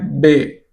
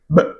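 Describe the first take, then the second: First: A vowel follows the consonant, like the letter name. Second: The consonant is said alone, with no vowel. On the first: This is the name of the letter. The speaker calls it wrong. "o som do B não é B" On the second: This is the actual sound of the letter. The speaker calls it right. "é B"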